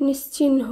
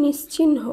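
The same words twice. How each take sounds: The two takes are said the same way.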